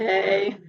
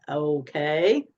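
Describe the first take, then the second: First: A short, clipped, insecure okay; mock the husband's nervous okay lightly. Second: A drawn-out, unsure okay, lower and rising; hesitant okay. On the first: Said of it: "And they get all insecure". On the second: Retold or imitated. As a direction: imitate the husband's wary okay, a touch lower. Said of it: "You know how men are".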